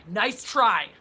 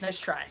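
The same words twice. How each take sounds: First: Louder, punched "Nice try"; mocking, punched repeat; emphatic taunt. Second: Said in the usual way. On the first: Real, not acted. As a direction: throw it back at the joker, hard. Repeats it louder to mock trolls.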